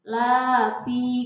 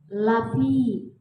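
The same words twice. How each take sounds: First: The vowel of the first syllable is long. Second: The vowel of the first syllable is short. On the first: Man is not in loss. The speaker calls it wrong. "kalau dibacanya panjang" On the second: Man is surely in loss. The speaker calls it right. "dibacanya la-nya harus pendek Bu, nggak boleh panjang"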